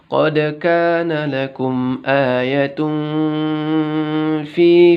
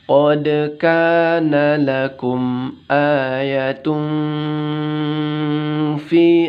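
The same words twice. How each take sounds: First: It is recited at a quick tempo. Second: It is recited at a slowed tempo. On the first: It is a quick model meant for teachers. "jangan cepat-cepat" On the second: It is a model meant for children to copy. "agak temponya agak di, uh, dilambatkan"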